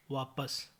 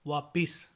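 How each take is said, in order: First: Said in the usual way. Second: वापिस with i after p; mispronunciation. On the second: Shown as a demonstration. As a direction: say vaa-PIS for वापिस. (वापिस, प पर इ) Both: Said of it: "वापिस नहीं".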